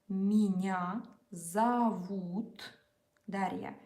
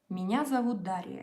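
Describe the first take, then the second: First: It is said slowly and carefully. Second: It is said fast and smoothly.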